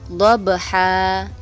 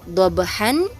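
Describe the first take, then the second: First: The word ends with a long vowel, no n. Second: The word ends with a short vowel plus n. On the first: "dibaca dhabha" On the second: "kata dhabhan"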